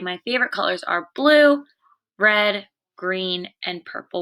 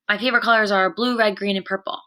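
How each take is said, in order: First: A short pause comes after each color. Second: The colors are said quickly with no pauses. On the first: The speaker calls it right. "where you hear that pause between each word" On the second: The speaker calls it wrong. "you wouldn't say, ... You wouldn't read it so fast"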